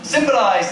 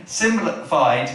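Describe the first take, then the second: First: "Symbolised", ending in -ised, higher; corrected word. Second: "symbolified", ending in -fied instead of -ised; garbled word. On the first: Preacher finding the word after a stumble, "Symbolised" said correctly and higher. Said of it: "that's the word". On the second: Preacher fumbling a word mid-sermon, "symbolified" with a wrong -fied ending. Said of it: "I can't get the word out". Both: Real, not acted.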